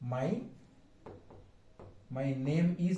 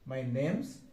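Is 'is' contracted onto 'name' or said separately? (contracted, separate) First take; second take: separate; contracted. First: The word 'is' is said as a separate syllable. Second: The word 'is' is reduced to an s sound. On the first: "my name ইজ না বলে" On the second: "বলবে my নেমস"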